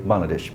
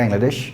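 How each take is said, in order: First: বাংলাদেশ said the British way with a clear a vowel at the start; বাংলাদেশ in a light British pronunciation; British Bangladesh. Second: বাংলাদেশ said the American way with an open e sound at the start; বাংলাদেশ in a light American pronunciation; American Bangladesh. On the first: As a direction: say বাংলাদেশ like a Briton, first vowel as a. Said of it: "ব্রিটিশরা সাধারণত বলে থাকবে". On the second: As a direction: say বাংলাদেশ like an American, first vowel as e. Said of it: "আমেরিকানরা ... এ, এইভাবে বলতে চায়". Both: Shown as a demonstration.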